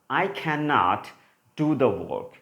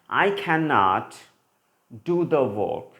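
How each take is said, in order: First: The word cannot is said in full. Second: The word cannot is said in full.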